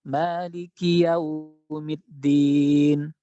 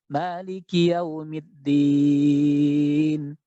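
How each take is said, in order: No difference in how they are said.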